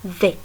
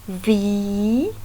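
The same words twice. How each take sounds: First: The letter name is short and lighter. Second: The letter name is long and heavier. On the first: This is the French letter name. "in French is V, a very short one, and less heavier" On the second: This is the English letter name. "in English V"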